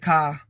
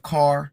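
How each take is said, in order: First: The word ends on an open vowel without r. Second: The word ends with a clear r sound. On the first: This is the Creole and Southern way of saying it. "Jamaicans say ka instead of car" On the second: This is the standard way of saying it. "instead of car"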